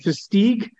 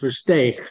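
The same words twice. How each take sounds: First: It is said with an American English pronunciation. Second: It is said with a throaty Dutch pronunciation. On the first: "Most Americans say Versteeg" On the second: "the Dutch pronunciation, my original heritage"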